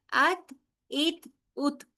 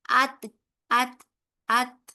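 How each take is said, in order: First: "ات" slowly, the ta released with a puff of air; ta with breath. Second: "ات" firmer, with a short bounce at the end; bounced ta. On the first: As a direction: let the breath run out after "ات". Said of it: "سانس بھی جاری رہتی ہے". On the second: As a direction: clip "ات" off with a small echo of ta. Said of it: "ہلکی سی ایئر آپ کو باہر آتی". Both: Shown as a demonstration.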